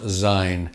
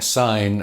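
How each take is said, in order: First: The word begins with a z sound. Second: The word begins with an s sound. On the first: The speaker calls it wrong. "and not Zine, as many an uh, ignorant Englishman might well say" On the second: The speaker calls it right. "it's pronounced Auld Lang Syne"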